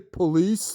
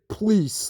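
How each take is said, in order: First: The first syllable keeps its O vowel. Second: The O vowel is dropped, giving one syllable. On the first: "he would never say police, like with an O" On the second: "like P L E E C E"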